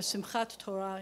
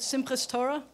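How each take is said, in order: First: The first word ends with a t sound. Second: The first word ends with an s sound. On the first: It is the Hebrew form. "in Hebrew" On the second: It is the Yiddish form. "That's the Yiddish pronunciation"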